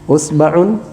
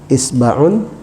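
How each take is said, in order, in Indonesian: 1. Kata ini diawali dengan vokal u. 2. Kata ini diawali dengan vokal i. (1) "hamzanya dibaca dengan harakat dhammah" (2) "hamzanya dengan harakat ya kasrah"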